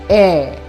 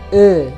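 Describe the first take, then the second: First: The vowel is said with an open sound. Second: The vowel is said with a closed sound. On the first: "E yang bunyinya terbuka" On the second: "vokal E yang bunyinya tertutup"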